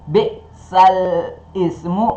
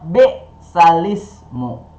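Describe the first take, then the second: First: The two words are said as separate words. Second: The two words are run together into one. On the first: "Yang tadi bacaannya"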